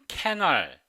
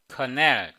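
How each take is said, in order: First: The first vowel sounds like 'ae'. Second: The first vowel sounds like 'uh'. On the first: The speaker calls it wrong. "오랫동안 캐널 이렇게 발음했어요" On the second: The speaker calls it right. "커넬 이렇게 발음해야 돼요"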